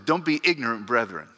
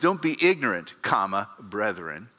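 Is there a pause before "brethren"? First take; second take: no; yes. First: It runs straight on into "brethren". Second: There is a break before "brethren".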